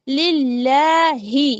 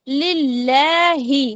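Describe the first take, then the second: No difference in how they are said.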